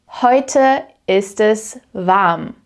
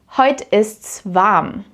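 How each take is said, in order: First: Es is said as a separate full word. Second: Es is reduced to an s on the verb.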